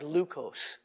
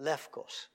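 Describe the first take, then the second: First: The middle is said with a 'u' vowel sound. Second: The middle is said with an 'f' sound. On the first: "It looks like leukos" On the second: "modern Greek would pronounce it lefkos"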